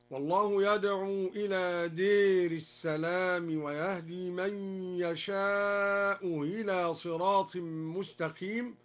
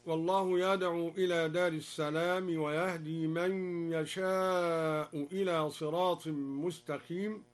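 First: "دير" with a long e, der, and a blurred hamza after "يشاء"; imala, softened hamza. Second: Said in the usual way. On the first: Shown as a demonstration. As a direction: bend the a of "دير" to e, ease "إلى" in after "يشاء" without a full glottal stop. (بإمالة "دير" وتسهيل همزة "إلى" بعد "يشاء") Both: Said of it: "أمال الدوري كلمة دار".

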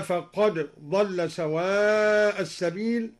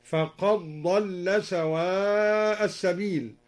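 First: Said in the usual way. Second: "فقد ضل" recited with the d merged into a doubled ḍ; idgham. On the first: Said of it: "أدغم الدوري الدال في الضاد". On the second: Shown as a demonstration. Reciter showing al-Duri's reading, d assimilated in "فقد ضل". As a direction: run "فقد ضل" together, no separate d. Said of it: "أدغم الدوري الدال في الضاد هكذا".

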